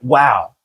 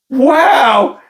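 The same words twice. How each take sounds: First: The word sounds flat and dismissive. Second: The word sounds full of amazement and joy. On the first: The speaker is unimpressed. "it wasn't like a dismissive like wow" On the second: The speaker is genuinely delighted. "It was pure amazement and joy where she went"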